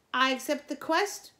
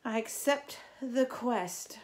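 First: High, loud and proud; loud proud declaration. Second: Said in the usual way. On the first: A narrator's reading. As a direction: declare it to the whole camp. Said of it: "she repeated".

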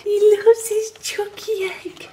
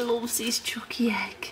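First: High, slow, part-whispered cooing; silly baby talk. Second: Soft, breath-only teasing; playful whisper. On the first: Partner teasing him about his egg, high drawn-out baby talk. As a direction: draw it out in a squeaky mock coo. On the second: Partner teasing him about his egg, playful whisper. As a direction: whisper it like a silly secret. Teasing baby talk, first take. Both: Pretend.

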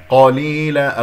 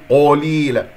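First: قليلا with a full, heavy q and unrounded lips; emphatic qaf opening قليلا. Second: قليلا with the qa rounded towards qo; faulty, o-coloured qaf in قليلا; wrong rounded lips. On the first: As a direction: recite قليلا, qaf thick and open. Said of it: "القاف مرتبة ثانية مفتوح". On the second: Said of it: "لا تكوير للشفتين". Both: Shown as a demonstration.

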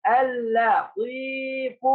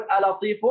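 First: ألا طيف stretched, with a long double L; high, very slow ألا طيف, holding the L; doubled lam demo. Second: آ لطيف with a short, single L; quick آ لطيف, L not held; wrong single-lam demo. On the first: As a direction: hold the lam, then lengthen the ee in ألا طيف. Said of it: "لاحظ يا بطل". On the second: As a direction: say آ لطيف without doubling the lam. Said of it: "ما تصلح يا أبطال". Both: Shown as a demonstration.

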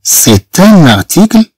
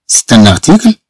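First: سي ان ارتيكل said slowly, word by word, as a model; slow model reading. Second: Said in the usual way. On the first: Shown as a demonstration. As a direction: spell out سي ان ارتيكل slowly for the class. (نطق بطيء لـ سي ان ارتيكل)

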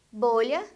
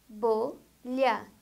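First: Said in the usual way. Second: "bolha" split slowly into bo, lha; syllable by syllable. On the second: Shown as a demonstration. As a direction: say "bolha" as two separate beats. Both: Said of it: "A palavra que tem duas sílabas".

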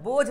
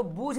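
First: बोझ with an o, "bojh"; correct unstretched reading. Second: बूझ with oo, "boojh"; wrong stretched reading. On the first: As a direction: say बोझ with o, not oo. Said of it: "क्या पढ़ रहे हैं?". (बोझ में ओ की आवाज़) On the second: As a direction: say बूझ with an oo vowel. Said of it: "इसको बूझ नहीं पढ़ रहे". (बूझ में ऊ की आवाज़) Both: Shown as a demonstration.

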